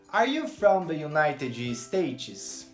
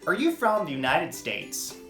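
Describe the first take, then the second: First: It uses Brazilian Portuguese rhythm and melody. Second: It uses quicker American rhythm with linked words. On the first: The speaker calls it wrong. "o nosso ritmo e melodia está tão enraizado na gente que a gente automaticamente transporta ele para a nova língua" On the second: The speaker calls it right. "se você fosse um americano... Você perguntaria"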